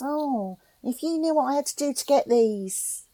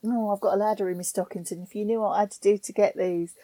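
First: A hint of a cheeky Cockney girl, pitched higher; lightly voiced Cockney wink about the stockings; Cockney servicewoman. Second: Said in the usual way. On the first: Quoting Grenfell's servicewoman to a friend, light cheeky Cockney. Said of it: "And she goes". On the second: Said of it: "that little gag about".

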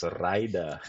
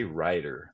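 First: "Rider" with a rolled R, imitating local controllers; imitated Iraqi radio "Rider", R trilled. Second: Said in the usual way. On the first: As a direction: roll the R hard in "Rider". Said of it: "had to roll those R's". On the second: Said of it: "they just couldn't say rider".

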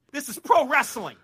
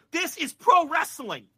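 First: PRO punched high and loud; higher, louder stress on PRO; emphatic declaration. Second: Slow and high, each word weighted, PRO peaking; louder, stretched-out stress on PRO; drawn-out emphatic declaration. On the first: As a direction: state it firmly, leaning on PRO. First take of repeated declaration. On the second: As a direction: hammer it home slowly, stressing PRO. Repeats it, slower, for emphasis. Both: Real, not acted.

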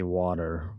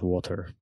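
First: "water" said the American way, with a tapped middle; American-accented "water". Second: "water" said the British way, with a crisp T; British-accented "water". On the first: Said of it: "always say water, you know, not water". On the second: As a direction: say "water" like a Brit. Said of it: "water is British". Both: Shown as a demonstration.

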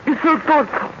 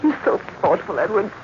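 First: "You're so thoughtful" lifted higher, stress on "so"; moved. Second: Said in the usual way. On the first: Acted. Jane repeating her thanks to Edward, more moved. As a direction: repeat it with rising feeling.

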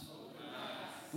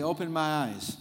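First: Whispered softly. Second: Said in the usual way. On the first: Shown as a demonstration. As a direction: whisper it back. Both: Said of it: "Everybody say".

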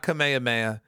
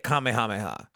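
First: Kamehameha slurred as kuh-MAY-uh-MAY-uh; botched Kamehameha, weak "kuh" and no "ha"; mispronunciation. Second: Kamehameha as KAH-may-HAH-may-HAH; correct pronunciation. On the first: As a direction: drop the h sounds in Kamehameha. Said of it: "Don't say it like that". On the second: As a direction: sound both "ha" syllables clearly in Kamehameha. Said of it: "You say it Kamehameha". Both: Shown as a demonstration.

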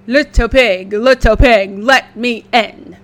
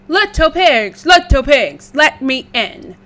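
First: Wolf voice. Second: Loud big bad wolf call. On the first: Acted. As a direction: call through the door like a hungry wolf. Wolf at the door. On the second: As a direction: bellow through the door like a wolf.

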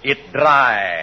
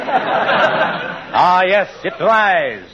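First: Hammy stage actor. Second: Drawn-out theatrical repeat; slow hammy stage actor. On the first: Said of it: "Go on, Mister Wilcox". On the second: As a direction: savor it slowly, stagey. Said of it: "the biggest ham". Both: Acted.

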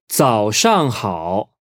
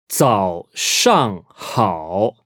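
First: "早上好" connected, still unhurried; slow but flowing "早上好"; joined-up model. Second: "早上好" very slowly, each syllable apart; drawn-out, separated tones on "早上好"; slow teaching model. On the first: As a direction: say "早上好" as one careful phrase. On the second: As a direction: sound out "早上好" with pauses between syllables. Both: Shown as a demonstration.

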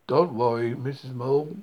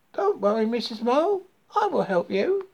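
First: Reassurance in a low-pitched animal voice; low, firm story-creature voice; low reassuring voice. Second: High-pitched frog offering help; high, helpful little frog; reassuring frog. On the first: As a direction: drop the pitch to comfort the mole. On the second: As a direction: comfort the mole in a high frog voice. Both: A narrator's reading.

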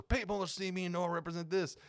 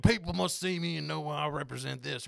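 First: Higher-pitched mock country accent. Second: Mock country accent. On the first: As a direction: play the other country voter, pitched up. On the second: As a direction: imitate a country voter proclaiming their politics. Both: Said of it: "they're both country accents".

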